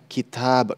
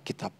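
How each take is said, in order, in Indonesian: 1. Diucapkan dengan bunyi Arab. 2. Diucapkan dengan bunyi Indonesia. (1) "Kalau dalam bahasa Arabnya kitab" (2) "kalau kita kitab"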